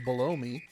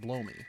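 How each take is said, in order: First: It sounds like the words below me. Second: It sounds like the words blow me. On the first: "it also reads as below me" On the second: "I can pronounce it as blow me"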